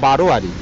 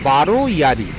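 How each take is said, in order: First: The two words are run together quickly. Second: The two words are said separately.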